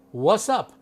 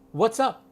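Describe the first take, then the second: First: It is contracted to two syllables. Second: It is contracted to two syllables.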